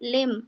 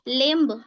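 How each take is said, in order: First: The b sound is silent. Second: The b sound is pronounced. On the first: The speaker calls it right. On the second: The speaker calls it wrong.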